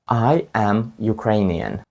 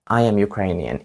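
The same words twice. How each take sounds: First: "I am Ukrainian" spoken slowly, word by word; slow teaching model. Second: Said in the usual way. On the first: Shown as a demonstration. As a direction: spell it out slowly for learners. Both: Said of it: "Пам'ятаєте?".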